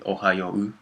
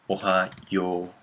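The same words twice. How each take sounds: First: The final vowel is short and clipped. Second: The final vowel is drawn out long. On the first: This reads the romaji literally as written. The speaker calls it wrong. "not really ohayo" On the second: This is how Japanese speakers actually say it. The speaker calls it right. "in Japanese is pronounced like ohayo, yo"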